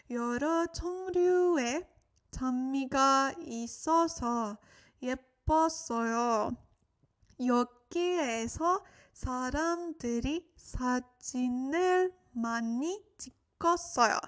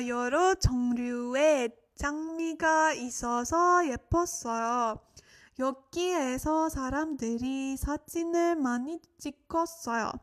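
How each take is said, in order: First: Slower phrase-by-phrase model reading; slow it down with pauses between chunks for learners; a little slower. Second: Said in the usual way. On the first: Shown as a demonstration. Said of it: "repeat a little bit slower for you guys". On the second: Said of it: "let's repeat those two sentences together".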